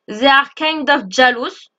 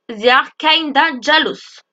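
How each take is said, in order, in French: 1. "Kind of" se dit en deux mots pleins. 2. "Kind of" se fond en un seul mot, "kinda".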